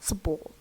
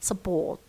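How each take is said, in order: First: The first syllable has a reduced schwa vowel. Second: The first syllable has a reduced schwa vowel.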